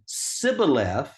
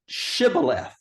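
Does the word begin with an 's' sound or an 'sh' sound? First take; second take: s; sh. First: The word begins with a plain 's' sound. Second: The word begins with an 'sh' sound. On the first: "if they couldn't pronounce the S H" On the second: "Sh, S H"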